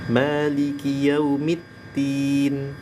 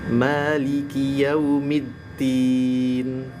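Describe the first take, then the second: First: The consonant is a single undoubled t. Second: The doubled consonant is d followed by t. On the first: "berubah jadi huruf ta semuanya, jadi tak bertasydid" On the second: "pertama dal, yang kedua ta"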